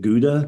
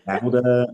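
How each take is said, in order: First: It is said with an American pronunciation. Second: It is said with an English pronunciation. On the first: "You Americans call it Gouda" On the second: "In England, Gouda"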